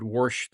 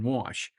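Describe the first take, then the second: First: "wash" said with an added R, like "warsh"; intrusive R. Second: Said in the usual way. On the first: Shown as a demonstration. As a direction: slip an R into "wash". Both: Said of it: "there's no R in wash".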